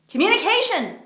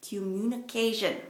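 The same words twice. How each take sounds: First: Communication. said higher and louder, hitting every syllable; emphatic repeat. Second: Said in the usual way. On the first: Retold or imitated. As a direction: drive home Communication. as the key word. Businessman's answer, repeated emphatically.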